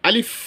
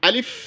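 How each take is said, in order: No difference in how they are said.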